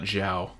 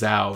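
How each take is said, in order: First: The name begins with a zh sound. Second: The name begins with a plain z sound. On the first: The speaker calls it wrong. "not Zhao" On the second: The speaker calls it right. "it is Zhao, ... because there's no H"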